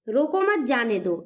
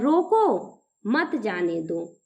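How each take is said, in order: First: It is said without any pause. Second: There is a pause after रोको.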